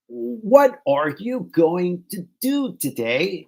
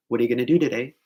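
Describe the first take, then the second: First: Every word drawn out slow and separate, higher; stiff, slow, fully pronounced textbook delivery; over-enunciated. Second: Said in the usual way. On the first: Shown as a demonstration. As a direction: say "what are you going to do today" word by word, with a full "going to". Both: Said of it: "モノマネしてくださいって感じですね".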